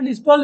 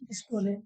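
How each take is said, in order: First: The word ends without a final vowel sound. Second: The word ends with an extra final vowel sound. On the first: "सिस्टोल डिस्टोल भी बोल सकते हो" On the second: "असल pronunciation क्या होता है"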